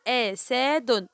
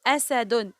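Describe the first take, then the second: First: "أسد" drawn out, each letter sounded apart; teacher segmenting "أسد"; syllable by syllable. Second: Said in the usual way. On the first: Shown as a demonstration. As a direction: say "أسد" very slowly in separate pieces. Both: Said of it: "نطقت كل حرف لوحده".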